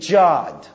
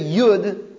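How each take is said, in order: First: The word begins with a J sound. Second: The word begins with a Y sound. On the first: "they think a Yud is pronounced as a J" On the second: "instead of Yud"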